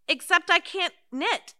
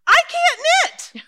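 First: Said in the usual way. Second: High, loud and slow wail of dismay; exasperated cry. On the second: Acted. Old lady wailing to her friend that she can't knit, high and loud. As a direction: throw up your hands and cry it out. Exasperated outburst about knitting.

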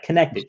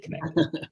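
First: "connected" punched, rising on the end; "connected" said with a rising push; stressed repeat. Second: "connected" breathed almost voiceless and soft; "connected" trailing off in a hushed whisper; whispered repeat. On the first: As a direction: lean into "connected" with a lift. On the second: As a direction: drop "connected" to an awed whisper. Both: Real, not acted.

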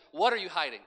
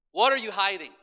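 First: Said in the usual way. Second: Same question pushed much louder; preacher driving the question into the congregation, louder; louder repeat. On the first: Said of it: "repeated question". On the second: Acted. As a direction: hammer it home the second time. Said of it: "repeated louder".

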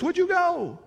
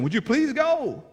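First: Much higher, rising plea on "you"; lightly voiced urgent begging townsfolk; a hint of townsfolk begging Jesus to leave; begging townspeople. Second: High, slow "please" as the townspeople plead; lightly voiced timid plea for Jesus to leave; a hint of frightened townsfolk begging.

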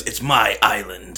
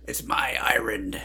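First: Slow, drawn-out Irish movie line; lightly put-on Irish brogue; quoting the movie line. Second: Slow, breathy whispered Irish line; whispered brogue imitation; whispered movie quote. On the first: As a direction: say it slowly like the film character. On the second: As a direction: echo the film line in a hushed whisper. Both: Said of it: "he goes".

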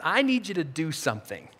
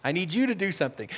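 First: Low, soft, with weight on "I"; quietly ask, leaning on "I need"; gentle request. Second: Soft, quicker, with "you" emphasized; stress on "you". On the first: Jesus speaking to his followers, gentle and low. Voicing Jesus, first take. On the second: Jesus singling out the listener, stress on "you". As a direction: quietly put the weight on "you". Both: Acted.

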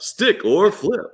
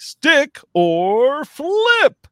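First: High, very slow teasing host question; flirty teasing dating host. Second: High, loud, drawn-out host question; flirty teasing dating host. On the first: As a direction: stretch it out like a dating show host. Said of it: "contestant number one". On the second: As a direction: tease it out like a dating show host. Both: Acted.

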